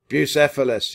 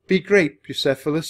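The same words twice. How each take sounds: First: Loud, raised call; shout. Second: High, emotional farewell; loud, high, touch of heartbreak; voice cracking. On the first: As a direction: call the horse out loudly. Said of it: "he shouted". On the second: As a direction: send him off with a catch in the voice. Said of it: "his voice cracking". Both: A narrator's reading.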